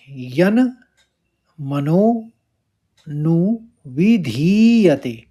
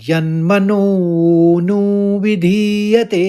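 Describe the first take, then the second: First: The words are said apart with breaks. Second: The words are run together without breaks.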